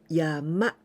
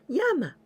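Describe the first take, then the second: First: The pitch goes up across the word. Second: The pitch does not go up across the word. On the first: The speaker calls it right. "Going up" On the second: The speaker calls it wrong. "Not yama"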